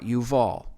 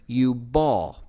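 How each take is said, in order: First: The middle consonant is a v sound. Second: The middle consonant is a b sound. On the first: "not Yuval" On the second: "it's pronounced there Yubal"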